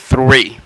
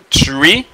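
First: The word begins with a th sound. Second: The word begins with a plain t sound. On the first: The speaker calls it right. "c'est three" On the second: The speaker calls it wrong. "Ça c'est pas tree"

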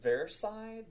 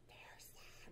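First: It is said in a normal voice. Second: It is said in a hissing whisper. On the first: The speaker calls it wrong. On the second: The speaker calls it right. "like, in a hissing, like"

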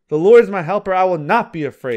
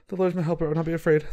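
First: The voice sounds firm and confident. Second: The voice sounds timid and unsure. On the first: The speaker calls it right. "if you say it with confidence" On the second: The speaker calls it wrong. "Don't just say"

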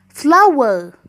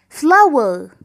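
Both takes have the same delivery.

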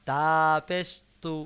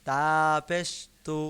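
No difference in how they are said.

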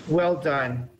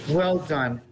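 Both takes have the same delivery.

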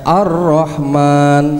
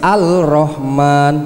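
First: The l merges into a doubled r sound. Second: An l sound is heard before the r. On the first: This is how the word is actually recited. "membacanya Ar-Rahman" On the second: This is how the word is written. "Tulisannya Al-Rahman"

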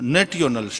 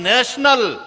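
First: The middle is said as a 't-yo' sound. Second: The middle is said as an 'sh' sound. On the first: The speaker calls it wrong. "નેટિયોનલ spelling બોલ" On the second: The speaker calls it right. "એલા નેશનલ"

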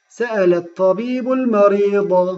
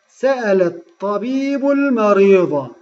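No difference in how they are said.

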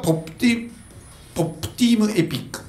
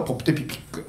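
First: The name is said at a normal, unhurried pace. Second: The name is said quickly and run together.

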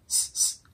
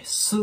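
First: The s is a bare hiss with no vowel. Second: The s is followed by an u vowel. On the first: The speaker calls it right. "ここではシーンだけを発音するイメージ" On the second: The speaker calls it wrong. "すっていう感じで強くね、発音すると、こうs とu っていう日本語のこうローマ字でね、S というのスの音になってしまう"

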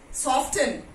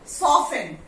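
First: The T sound is pronounced in the middle. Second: The T sound is left out completely. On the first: The speaker calls it wrong. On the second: The speaker calls it right. "T is silent over here"

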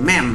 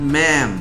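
First: The vowel is cut short. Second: The vowel is drawn out long. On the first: The speaker calls it wrong. "ไม่ใช่" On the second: The speaker calls it right. "ออกเสียงยาวๆนะ"

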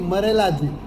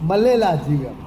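First: The second syllable has an r sound. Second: The second syllable has a plain l sound. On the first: This is how North Gujarat dialect says it. "અળની જગ્યાએ ઉત્તર ગુજરાતમાં આપણે કહેતા હતા ર બોલે છે" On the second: This is how South Gujarat dialect says it. "અહીંયા અળની જગ્યાએ લ બોલે છે દક્ષિણ ગુજરાતમાં"

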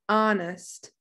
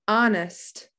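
No difference in how they are said.

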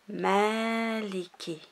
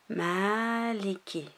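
The two takes are said the same way.

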